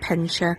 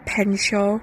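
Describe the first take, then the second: First: It is said in local dialect, ending 'sha'. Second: It is said in standard pronunciation, ending 'shaw'.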